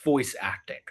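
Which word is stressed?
voice. The stress falls on the word voice. Having a good voice matters most. The speaker calls it wrong.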